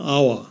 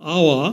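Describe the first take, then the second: No difference in how they are said.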